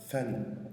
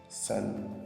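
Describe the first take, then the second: First: It begins with a th sound, tongue between teeth. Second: It begins with a hissing s sound. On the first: The speaker calls it right. "avec le bout de la langue entre les dents" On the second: The speaker calls it wrong. "vous pouvez la prononcer en utilisant la lettre S"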